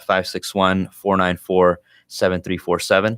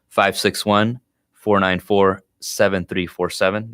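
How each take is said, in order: First: The number is said at normal, quicker speed. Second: The number is said more slowly.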